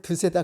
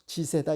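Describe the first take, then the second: First: The word begins with a d sound. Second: The word begins with a j sound. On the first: This is the standard form. "드세다 그러지 않고" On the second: This is how people from Jeolla say it. "이게 전라도식 발음이거든요"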